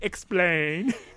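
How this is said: It is said in a harsh robotic voice.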